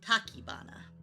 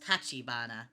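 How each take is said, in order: First: The second syllable starts with a 'k' sound. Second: The second syllable starts with a 'ch' sound. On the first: The altered form makes a pun on tachyon. "in the story I pronounce it Takibana" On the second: This is the usual form of the name. "Normally it'd be pronounced Tachibana"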